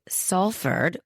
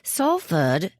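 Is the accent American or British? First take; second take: American; British. First: It is said in an American accent. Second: It is said in a British accent.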